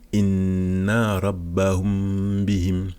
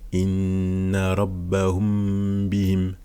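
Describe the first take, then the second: Both takes have the same delivery.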